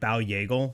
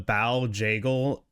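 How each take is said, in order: First: The name starts with a soft Swedish Y. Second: The name starts with a hard J sound.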